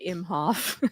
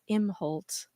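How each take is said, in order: First: The name ends with an f sound. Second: The name ends with an lt sound. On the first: The speaker calls it wrong. "did mispronounce ... I said Imhoff" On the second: The speaker calls it right. "I apologize. It's"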